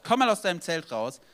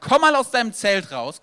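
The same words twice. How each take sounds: First: Said in the usual way. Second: Loud, high call to come outside; loud call, stress on "mal". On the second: Acted. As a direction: call him out of the tent with force. God calls Abraham out.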